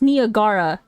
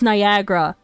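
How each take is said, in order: First: Every A in the word is pronounced. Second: One of the A sounds is dropped. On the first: The speaker calls it wrong. "I thought it was pronounced Niagara" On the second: The speaker calls it right. "why does one of the A's sound like it's missing?"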